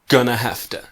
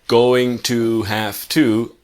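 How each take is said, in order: First: The words blend into a reduced 'gonna'. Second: Each word is said fully as 'going to'. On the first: "now it's gonna have to" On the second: "previously we had going to, have to"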